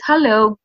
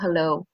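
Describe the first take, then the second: First: The greeting sounds confident and pleasant. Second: The greeting sounds dull and casual.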